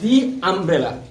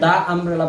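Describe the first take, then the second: First: 'The' is said with a long 'ee' vowel. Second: 'The' is said with a short 'uh' vowel. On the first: The speaker calls it right. "আমরা এটাকে বলবো দি umbrella" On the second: The speaker calls it wrong. "আমরা এটাকে দা umbrella বলতে পারবো না"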